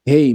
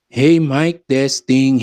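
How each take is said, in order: First: The voice sounds muffled, missing its middle frequencies. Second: The voice sounds clear, with full middle frequencies. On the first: The speaker calls it wrong. "medyo lumabo rin yung ating quality ng voice, no? Parang naging kulob" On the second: The speaker calls it right. "Ayan, so naging okay na no"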